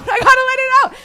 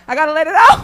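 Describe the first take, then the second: First: Much higher and louder, fast, laughing through it; laughing outburst. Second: Said out loud and firmly; loud declaration. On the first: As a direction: let it burst out in a laughing squeal. Repeats it, laughing and breaking up. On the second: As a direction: push it out, louder. Comic declares he must vent. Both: Acted.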